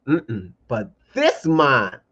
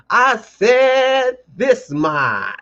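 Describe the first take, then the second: First: Said in the usual way. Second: High, very slow preacher stretch; mock pulpit call. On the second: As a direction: draw it out like a preacher. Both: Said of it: "let me put on my little preacher voice".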